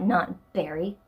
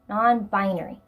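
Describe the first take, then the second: First: The word is shortened to three syllables. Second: The word is said in full, four syllables. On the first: The speaker calls it wrong. "not non-berry" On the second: The speaker calls it right. "non-binary, not non-berry"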